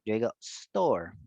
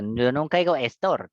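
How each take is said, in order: First: Store starting straight on the S, slower; teacher models the correct store; correct S onset. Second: Store said as estor with an E in front; mock the Spanish-style estor; teacher imitates the mistake; wrong, with added E. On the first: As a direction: clean stor with no vowel before it. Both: Shown as a demonstration.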